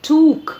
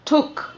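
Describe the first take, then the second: First: The vowel is long. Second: The vowel is short. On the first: The speaker calls it wrong. "या टुक को बोलते हैं टूक" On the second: The speaker calls it right. "The correct pronunciation is टुक"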